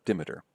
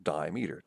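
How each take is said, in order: First: Said in the usual way. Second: "dimeter" said as DIE-mee-ter; split-word pronunciation. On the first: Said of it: "it's a dimeter". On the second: Shown as a demonstration. Teacher shows students the parts of a term, "dimeter" as DIE-mee-ter. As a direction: say "dimeter" with a long I and a full "meter".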